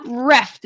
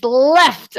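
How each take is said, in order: First: "reft" with an R sound replacing the L of left; higher "reft", R at the start; mispronounced L. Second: "left" with a clear L at the start, not R; teacherly "left", stressing the initial L; corrected L. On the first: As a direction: say "reft", imitating a child who turns L into R. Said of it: "It sounds like ru". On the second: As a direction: say "left" high and emphatic to model the L. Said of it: "I'm, like, doing the L". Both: Retold or imitated.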